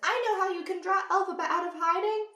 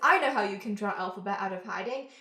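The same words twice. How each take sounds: First: It is said in a put-on character voice. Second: It is said in the speaker's natural voice.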